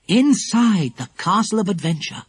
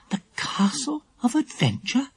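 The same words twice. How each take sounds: First: Said in the usual way. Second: High, hushed, questioning echo; surprised echo. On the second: A narrator's reading. Lucy Ann questioning the castle's name, surprised. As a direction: repeat the name in high-pitched wonder. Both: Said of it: "echoed Lucy Ann in surprise".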